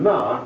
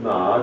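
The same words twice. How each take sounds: First: It is said with the fourth tone. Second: It is said with the second tone. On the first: It is a bit of a swear word. "ma is a bit of a swear word" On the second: It means hemp. "ma is the second tone"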